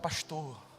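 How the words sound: It is said in a Rio de Janeiro accent.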